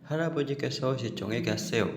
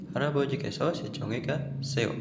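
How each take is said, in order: No difference in how they are said.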